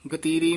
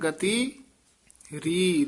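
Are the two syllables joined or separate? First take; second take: joined; separate. First: The word ri is run together with gati. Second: The word ri is said separately from gati. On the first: The speaker calls it wrong. "इस तरह नहीं बोलना है" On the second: The speaker calls it right. "री पद सारे वखरे कहने हैं"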